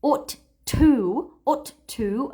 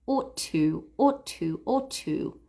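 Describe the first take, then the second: First: "ought to" with two Ts and a pause between; separate Ts. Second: "ought to" joined into one word with a single T. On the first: Teacher showing learners the unlinked "ought to". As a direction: say "ought to" as two words with a break. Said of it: "instead of saying ought to". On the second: Teacher showing learners the linked "ought to". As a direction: merge "ought to" smoothly, one T. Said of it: "as if it were one word". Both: Shown as a demonstration.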